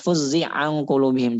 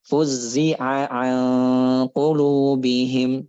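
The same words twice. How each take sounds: First: The two ain sounds are merged into one. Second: Each ain sound is pronounced clearly and separately. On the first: The speaker calls it wrong. "Jangan juga didhamkan" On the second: The speaker calls it right. "Tapi fuzzi'a an qulubihim gitu"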